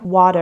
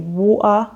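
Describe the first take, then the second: First: The middle T sounds like a soft D. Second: The middle T is dropped as a glottal stop. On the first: "in American English, they would say something like water, and it's more of a D sound" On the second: "some people will say water. This is known as a glottal stop"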